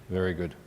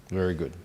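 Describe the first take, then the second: The two takes are said the same way.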